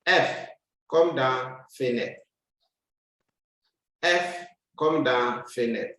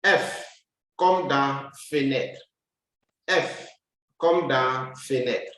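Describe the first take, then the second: No difference in how they are said.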